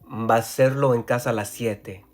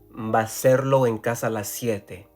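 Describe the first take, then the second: First: Matching sounds between words are merged together. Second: Matching sounds between words are merged together.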